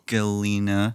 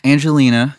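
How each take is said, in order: First: The G is said hard, like in 'go'. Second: The G is said soft, like a J. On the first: "You change the G in Angelina to a hard G instead of a soft G" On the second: "because everyone has heard that name before"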